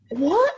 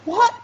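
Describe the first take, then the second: First: High, disbelieving what; shocked, rising question; incredulous. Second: Said in the usual way. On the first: Real, not acted. Outraged disbelief.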